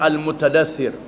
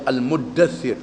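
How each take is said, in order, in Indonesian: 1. Bunyi t tetap dipertahankan sebelum d. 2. Bunyi t melebur menjadi d ganda. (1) "asalnya Al-Mutadathir, tak diidghamkan" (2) "jadi Al-Muddathir"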